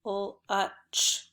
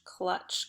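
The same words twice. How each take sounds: First: "clutch" split into separate sounds, k-l-u-ch; sounded out. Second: Said in the usual way. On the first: Shown as a demonstration. Teacher modelling word sounds for pupils, "clutch" segmented. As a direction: break "clutch" apart sound by sound. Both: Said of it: "you should have done".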